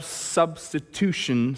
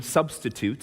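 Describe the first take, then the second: First: Stumbling slowly over "substitution"; "substitution" said slowly as the wrong word. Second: Said in the usual way. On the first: Shown as a demonstration. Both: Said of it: "not substitution".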